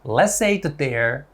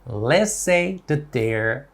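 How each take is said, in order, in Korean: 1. 이 구절은 빠른 속도로 말합니다. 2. 이 구절은 보통 속도로 말합니다.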